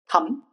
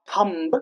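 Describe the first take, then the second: First: No b sound is heard at the end. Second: A b sound is heard at the end. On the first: The speaker calls it right. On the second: The speaker calls it wrong.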